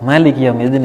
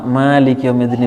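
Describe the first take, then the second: First: The first vowel of Maliki is said short. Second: The first vowel of Maliki is drawn out long. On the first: "ah dipendekkan"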